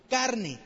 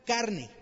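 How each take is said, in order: Both takes have the same delivery.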